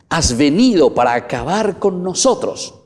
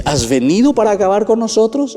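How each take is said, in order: First: A higher mock cry of the demon; demon's question. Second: Higher, louder rhetorical question; demon's question. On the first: Preacher voicing the demon questioning Jesus, mild mock cry. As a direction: throw the question out as the demon would. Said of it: "la segunda preguntita". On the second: Acted. Preacher repeating the demon's challenge to Jesus, higher and louder. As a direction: fling the demon's challenge out, raised. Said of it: "Es una pregunta retórica".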